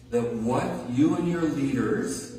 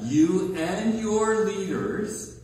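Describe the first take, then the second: First: Said in the usual way. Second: "You and your leaders" drawn out slowly with weight on "your"; stressed, slowed. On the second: Acted. Preacher pointing out the phrase, slow stressed repeat. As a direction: underline who is meant. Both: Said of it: "hear that?".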